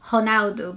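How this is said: The name is pronounced the Portuguese way. This is how Brazilians say the name. "because that's how we say it in Portuguese"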